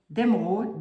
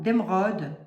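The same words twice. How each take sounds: First: D'émeraude with a closed "o", like "eau". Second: D'émeraude with an open "o", as in "pomme". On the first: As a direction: try d'émeraude with a rounded, closed "o". (d'émeraude avec un « o » fermé) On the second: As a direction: try d'émeraude with a loose, open "o". (d'émeraude avec un « o » ouvert) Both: Shown as a demonstration. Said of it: "je sais pas comment on dit".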